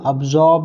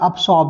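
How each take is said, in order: First: The consonant after b sounds like z. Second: The consonant after b sounds like s.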